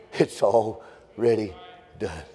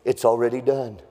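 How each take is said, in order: First: "already ... done" drawn out, with a pause before "done"; slow, deliberate emphasis. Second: Said in the usual way. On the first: Real, not acted. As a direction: let "already" stretch, then set "done" apart. Repeats it slowly for emphasis.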